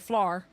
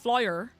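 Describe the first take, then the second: First: The vowel sound is clipped and short. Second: The vowel sound is drawn out and long. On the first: This is how the speaker's own area says it. "I say flour. There's just like a really short sound" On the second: This is how another part of the region says it. "the part of Northern Ireland that says flour"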